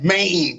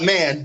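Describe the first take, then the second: First: The vowel sounds like the one in day. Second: The vowel sounds like the one in cat. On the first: The speaker calls it right. "You gotta say it right" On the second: The speaker calls it wrong. "not man"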